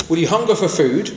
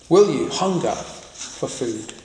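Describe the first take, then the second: First: Said in the usual way. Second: Slow, hushed question. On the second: Shown as a demonstration. Preacher asks the congregation, slow and hushed.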